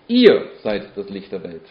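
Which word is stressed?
ihr. The stress is on the word 'ihr'. It is about you, not about anyone else. "es geht nicht um irgendjemand, sondern es geht um dich und um mich"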